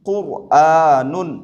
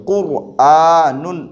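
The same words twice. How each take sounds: No difference in how they are said.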